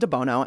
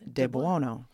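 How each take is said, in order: First: The name is said the plain English way. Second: The name is said with Italian pronunciation. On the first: "So you can say DeBuono, and I accept this" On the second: "with the Italian little flair in there"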